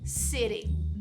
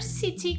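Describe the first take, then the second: First: The t becomes a quick r-like tap, American style. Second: The t is pronounced clearly, British style.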